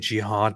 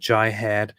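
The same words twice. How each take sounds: First: It is pronounced with Arabic-like sounds. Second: It is pronounced with English-like sounds. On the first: The word sounds foreign and threatening. The speaker calls it wrong. "it sounds too Middle Eastern" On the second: The word sounds familiar and harmless. The speaker calls it right. "it sounds more, you know, English and nice"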